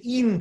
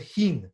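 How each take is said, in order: First: "in" with no H sound at the start; dropped H. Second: "hin" with a sounded H at the start; H pronounced. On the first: Teacher showing how foreign-born Rebbes spoke, "in" without H. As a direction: say "in", starting straight on the vowel. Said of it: "they would say in Tzedek instead of hin with a he". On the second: Teacher giving the standard form for contrast, "hin" with H. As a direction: say "hin", beginning with a breath of H. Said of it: "instead of hin with a he". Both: Shown as a demonstration.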